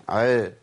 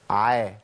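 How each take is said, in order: First: عا muffled, tongue pressed toward the palate; wrong closed ayn. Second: عا said with open jaws; open ayn. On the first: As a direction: close up and thicken the vowel of عا. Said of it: "ده اسمه إطباق". (عا مطبقة ومفخمة) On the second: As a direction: keep عا open and thin, tongue low off the palate. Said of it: "أفتح من الفكين". (عا مرققة بانفتاح الفكين) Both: Shown as a demonstration.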